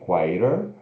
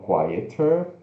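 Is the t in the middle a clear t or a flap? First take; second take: flap; clear t. First: The middle t is a quick r-like flap. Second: The middle t is a clear t sound. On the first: "ou o T fazendo o som do R" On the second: "com o E R no final"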